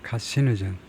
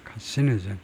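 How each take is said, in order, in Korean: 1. 강세는 두 번째 음절에 있어요. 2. 강세는 세 번째 음절에 있어요. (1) "carcinogen 두 번째 음절" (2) "제가 세 번째 음절에다 액센트를 두려고 했는데 carcinogen이 아니고"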